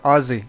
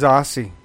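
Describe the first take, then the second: First: "Aussie" with a buzzing Z, AH-zee; Z pronunciation. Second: "Aussie" with an S sound, AH-see; hissed S pronunciation. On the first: Offering the other version, "Aussie" said as AH-zee. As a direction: say "Aussie" as Ozzy. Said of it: "It's Aussie". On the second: Correcting the group on nicknames, "Aussie" said as AH-see. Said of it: "They don't like Aussie". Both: Shown as a demonstration.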